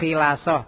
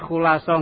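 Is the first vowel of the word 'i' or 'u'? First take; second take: i; u. First: The first vowel is an i sound. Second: The first vowel is an u sound. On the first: The speaker calls it wrong. "enggak khilasoh" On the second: The speaker calls it right. "Ini dibaca khulasoh"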